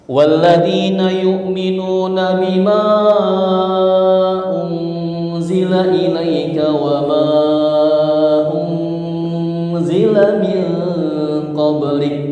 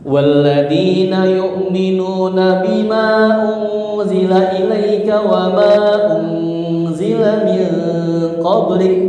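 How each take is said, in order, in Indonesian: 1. Vokal sebelum kata berikutnya dibaca panjang. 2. Vokal sebelum kata berikutnya dibaca pendek. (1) "yang empat" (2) "Kalau yang dua"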